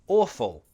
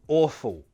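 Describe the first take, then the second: First: The L is pronounced as a clear L. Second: The L sounds like a W. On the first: "pronounce the L the true L way" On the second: "I tend to pronounce the L like an L, like a W sound"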